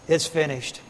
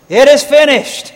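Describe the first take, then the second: First: It is said in a dejected, defeated tone. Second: It is said in a victorious, triumphant tone.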